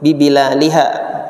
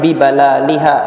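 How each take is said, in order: First: The second syllable has an 'i' vowel. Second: The second syllable has an 'a' vowel. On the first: "Wa kasriha juga boleh disebut dengan kasroh" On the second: "bifathil ba balal. Jadi pengucapannya bibalaliha"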